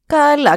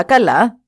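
First: High, louder καλά with a falling tune; καλά said high and firm, dropping at the end; a dismissive καλά, falling; first okay. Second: Καλά with a rising tune; a questioning, rising καλά; second okay. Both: Acted. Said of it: "είπαν τότε οι σύμβουλοι".

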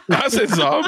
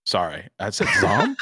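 First: Laughing. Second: Said in the usual way. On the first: Real, not acted. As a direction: repeat it through real laughter, higher and louder. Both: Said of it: "Did you just call him Zom?".

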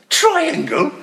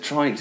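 First: High, loud, disbelieving echo; laughing, scandalised question; mock incredulous. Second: Said in the usual way. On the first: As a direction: balk at a ridiculous suggestion.

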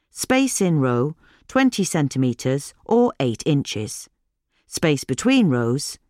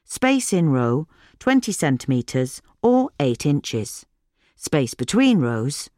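No difference in how they are said.

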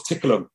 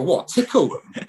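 First: Straight-faced and flat; deadpan. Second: High, slow, laughing disbelief; mock the English lads' baffled reaction; incredulous. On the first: Retold or imitated. The translator repeats it to the team, straight-faced and deadpan. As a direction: say it dead serious, no smile. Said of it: "he just straight face just goes". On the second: English players baffled by the translator, laughing high and slow disbelief. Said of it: "the English side look at him and go".

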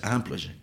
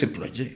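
First: EMPLOYÉ opening on nasal "am"; French first vowel in "employé"; correct French pronunciation. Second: EMPLOYÉ with a Spanish "em" start; Spanish-style em-plo-yé; as it is written. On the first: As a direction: say "employé" as am-plo-yé. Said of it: "en mi cabeza como está escrito". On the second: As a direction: read "employé" by its spelling. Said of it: "como está escrito es employé". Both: Shown as a demonstration.

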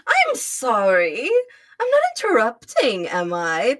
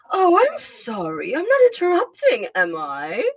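First: Haughty, put-on British tone; a lightly voiced sneering Starscream. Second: Haughty Starscream voice. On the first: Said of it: "That's my Starscream voice". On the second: Shown as a demonstration. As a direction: sneer it like a smug aristocrat. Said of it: "a very haughty voice".

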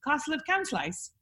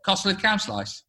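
First: Softer, higher copy of Stoke dialect; Stoke attempt. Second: Stoke accent. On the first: Host copies the phrase, tentative Stoke accent. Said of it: "How about this?". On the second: Teaching the host bit by bit, Stoke accent. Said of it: "Just do it bit by bit". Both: Shown as a demonstration.

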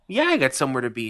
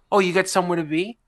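First: Quick deadpan comeback; a touch of sarcastic echo; flat retort. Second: Quick, higher, sassy question; mildly voiced nosy grandmother; grandma's sass. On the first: Retold or imitated. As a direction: throw her words back at her. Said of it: "And I go". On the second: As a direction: needle him playfully. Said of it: "And she goes".

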